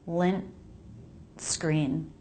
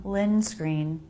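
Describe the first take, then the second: First: "Lint" with a held T stop before "screen"; "Lint" ends in a clear T stop, then "screen". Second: "lin screen" run together with no T stop; "lin screen" said with the T dropped and no break. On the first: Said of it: "I'm making it a stop". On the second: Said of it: "different from lin screen, where there's no break". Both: Shown as a demonstration.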